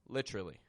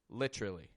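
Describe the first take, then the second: First: The word is reduced, with a ch-like middle sound. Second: The same.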